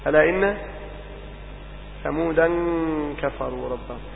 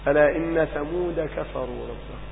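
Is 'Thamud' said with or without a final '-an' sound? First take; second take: with -an; without -an. First: Thamud ends with an added -an sound. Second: Thamud ends without an added -an sound. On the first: The word is treated as taking nunation. "وفي بعض القراءات ليست ممنوعة من الفصل فتلون" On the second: The word is treated as not taking nunation. "لكنها عندنا في قراءة حفص ممنوع من الفصل"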